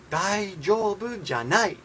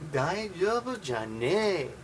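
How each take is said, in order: First: The ending is a clear 'nai' sound. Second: The ending is a drawn-out 'nee' sound. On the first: A neutral way to say it is not okay. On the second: A rough, casual way to say it is not okay.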